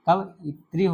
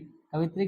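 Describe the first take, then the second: First: It is said with an extra vowel: ka-va-it-ri. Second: It is said as ka-vit-ri, without the extra vowel. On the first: The speaker calls it right. "कवइत्री होता है" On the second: The speaker calls it wrong. "कवित्री गलत है"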